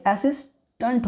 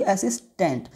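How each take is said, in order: First: असिस्टेंट ending in "tunt"; correct "a" sound. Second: असिस्टेंट ending in "tent"; wrong "e" sound. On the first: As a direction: say असिस्टेंट with "uh" in the last syllable. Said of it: "यहाँ पे असिस्टेंट होगा". (असिस्टेंट के अंत में "टंट") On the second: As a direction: say असिस्टेंट with a clear "e" in the last syllable. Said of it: "ना कि असिस्टेंट". (असिस्टेंट के अंत में "टेंट") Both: Shown as a demonstration.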